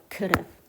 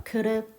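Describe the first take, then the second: No difference in how they are said.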